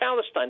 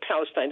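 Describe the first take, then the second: First: The word begins with a sound other than P. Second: The word begins with a clear P sound. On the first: "Arabs can't pronounce the letter P. They say Palestine" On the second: "They can't say Palestine"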